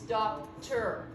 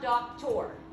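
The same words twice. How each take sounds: First: The last syllable is reduced to 'er'. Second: The last syllable has a full 'or' vowel. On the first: The speaker calls it right. "when there's no stress is going to say er" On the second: The speaker calls it wrong. "It's not doctor"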